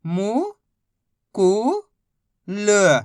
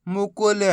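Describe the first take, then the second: First: मु, कु, ल held apart; syllable by syllable. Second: मुकुल run together as one word; blended word. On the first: Teacher modelling reading, मु, कु, ल sounded out separately. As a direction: sound out मु... कु... ल with pauses. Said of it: "बस इसी तरीके से". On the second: Teacher showing the joined word, मुकुल said whole. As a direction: blend मुकुल without breaks. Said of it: "तो मिलके बन जाएगा". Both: Shown as a demonstration.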